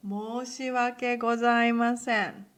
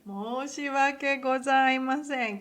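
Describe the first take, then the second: First: Loud, deeply formal apology. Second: Loud ceremonious apology; formal apology. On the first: Teacher showing the most formal sorry, loud and formal. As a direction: declare the apology with full ceremony. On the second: Teacher repeating the formal apology, loud and ceremonious. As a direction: deliver it with full formality. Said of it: "what I said in a formal way". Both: Shown as a demonstration.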